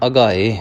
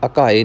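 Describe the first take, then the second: First: ਅਗਾਏ with a voiced g, a-gaa-ey; g sound. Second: ਅਘਾਏ with a hard k sound, a-kaa-ey; k-like ਘੱਗਾ. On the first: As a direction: soften the middle consonant of ਅਗਾਏ to g. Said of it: "ਗੱਗੇ ਦੇ ਨਾਲ". (ਅਗਾਏ ਵਿੱਚ ਗੱਗੇ ਵਾਲੀ ਆਵਾਜ਼) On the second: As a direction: say the ਘ of ਅਘਾਏ like an unvoiced k. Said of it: "ਅਘਾਏ ਨਹੀਂ ਕਹਿਣਾ". (ਅਘਾਏ ਵਿੱਚ ਘੱਗੇ ਦੀ ਕੱਕੇ ਵਰਗੀ ਆਵਾਜ਼) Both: Shown as a demonstration.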